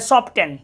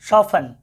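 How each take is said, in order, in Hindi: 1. बीच में t की आवाज़ बोली जाती है। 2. बीच में t की आवाज़ नहीं बोली जाती है।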